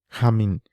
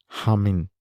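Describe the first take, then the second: Both takes have the same delivery.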